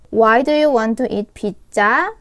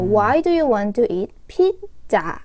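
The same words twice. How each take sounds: First: The voice rises at the end. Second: The voice rises, then falls at the end. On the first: The speaker calls it wrong. "가 아니라" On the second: The speaker calls it right. "끝을 올렸다가 내려주시는 게 맞는 인토네이션입니다"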